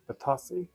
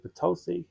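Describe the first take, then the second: First: The name is said the British way. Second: The name is said the American way. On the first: "we say Batasi" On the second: "the Americans say Batosi"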